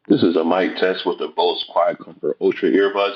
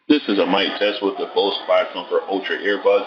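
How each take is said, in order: First: The voice is heard with a quiet background. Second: The voice is heard with a noisy background. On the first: "in a quiet location" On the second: "in a crowded location"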